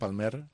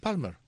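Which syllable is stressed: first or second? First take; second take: second; first. First: The stress is on the second syllable. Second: The stress is on the first syllable. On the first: The speaker calls it wrong. "con acento en la E, como si lo llevara" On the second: The speaker calls it right. "Porque no lo lleva"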